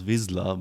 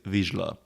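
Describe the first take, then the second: First: The middle consonant is a plain s or z. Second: The middle consonant is a zh sound. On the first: This is how the film pronounces the name. The speaker calls it wrong. "this is how Jon Favreau pronounces the clan's name" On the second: This is the Hungarian pronunciation of the name. The speaker calls it right. "the correct pronunciation is Vizsla"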